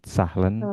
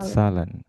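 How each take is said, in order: First: An h sound is heard mid-word. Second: No h sound is heard mid-word. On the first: The speaker calls it wrong. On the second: The speaker calls it right.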